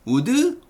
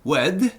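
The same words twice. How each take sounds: First: Would said as two syllables u-deu without a w; Korean-style u-deu would; wrong would. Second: Would started with a rounded w glide, one syllable; native-like would; correct would. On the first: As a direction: drop the w in would and add a vowel. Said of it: "이걸 would라고 읽으면 에?". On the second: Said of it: "would가 아니고 would". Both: Shown as a demonstration.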